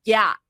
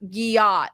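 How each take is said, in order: First: GYAT as one syllable, yat; corrected GYAT. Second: GYAT in two syllables, gee-AHT; mispronounced GYAT. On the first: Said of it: "No, it's not gyat, it's gyat". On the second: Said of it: "No, it's not gyat". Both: Retold or imitated.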